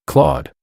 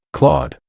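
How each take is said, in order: First: High, sharp call of a name; piercing cry. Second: High, tearful, trembling name; trembling sob. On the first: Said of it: "I heard a piercing cry". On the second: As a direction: say the name through sobs. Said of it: "I heard a trembling voice, filled with sobs". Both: A narrator's reading.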